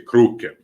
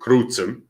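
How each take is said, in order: First: The middle consonant is said as k. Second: The middle consonant is said as ts. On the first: "It's always a K sound" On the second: "In classical Volga, you say crucem"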